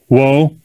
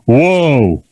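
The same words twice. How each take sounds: First: It sounds soft and asking, like a request. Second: It sounds firm and commanding, like an order. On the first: The horse is being asked to stop. The speaker calls it wrong. "the way you're you're asking him is" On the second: The horse is being ordered to stop. The speaker calls it right. "instead of"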